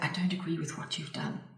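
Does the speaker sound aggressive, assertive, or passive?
passive. The voice sounds timid, hesitant and apologetic. The speaker calls it wrong. "you could call that very passive"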